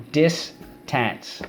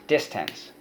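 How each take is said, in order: First: Distance said as a drawn-out model; model word. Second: Said in the usual way. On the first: Shown as a demonstration. Teacher models the word for students to repeat, drawn out. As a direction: say Distance slowly for the class. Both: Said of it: "Let's go".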